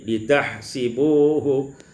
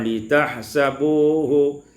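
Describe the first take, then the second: First: The vowel after s is an i. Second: The vowel after s is an a.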